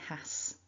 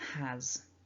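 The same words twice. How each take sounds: First: It ends with a voiceless S sound. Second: It ends with a voiced Z sound. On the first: The speaker calls it wrong. "we don't say has" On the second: The speaker calls it right. "it's actually pronounced with a voiced Z sound"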